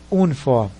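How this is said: It is pronounced the Portuguese way. "Para nós português seria uniforme"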